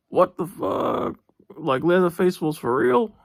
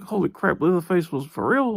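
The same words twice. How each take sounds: First: High, slow, stunned "what the fuck"; shocked disbelief. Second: Lightly raised imagined gasp of disbelief; mock amazement. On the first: Retold or imitated. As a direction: recreate the moment the penny dropped, stretching it out. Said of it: "That's what I was thinking". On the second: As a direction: play the viewer's half-hearted surprise. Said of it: "you'd think".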